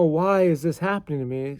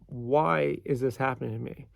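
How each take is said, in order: First: It sounds upset and complaining. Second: It sounds calm and curious. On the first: Life is treating me unfairly. The speaker calls it wrong. "don't say, you know, no, why is this happening to me? ... It's so unfair" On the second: There is a lesson to find here. The speaker calls it right. "Say, hmm, ... I wonder why this is happening to me"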